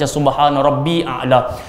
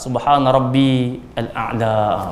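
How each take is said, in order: First: Rabbi runs straight into a'la with no article. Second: Rabbi stands apart, followed by a full al-a'la. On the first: The speaker calls it wrong. "Setengah kadang kita baca subhana rabbi a'la" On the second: The speaker calls it right. "kalau dia tak nak sambung, patut dia bunyi rabbi al-a'la"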